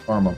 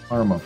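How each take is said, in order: Both takes have the same delivery.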